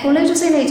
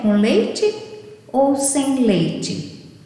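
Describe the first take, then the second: First: It is spoken quickly and run together. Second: It is spoken slowly with clear pauses. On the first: It is said automatically, out of habit. The speaker calls it wrong. "de tão rápido que ela fala" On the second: The listener is given time to understand. The speaker calls it right. "Você tem que falar pausadamente"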